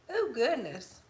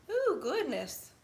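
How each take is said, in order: First: Said in the usual way. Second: Drawn-out ooh. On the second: Real, not acted. Reacting to the dog, slow and high.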